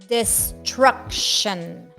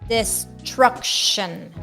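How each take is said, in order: Both takes have the same delivery.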